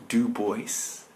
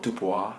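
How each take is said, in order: First: Put-on DU BOIS said as "doo-boys"; American pronunciation. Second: DUBOIS said as "doo-bwah"; French pronunciation. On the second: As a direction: say DUBOIS French-style, silent s. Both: Shown as a demonstration. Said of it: "Not Dubois".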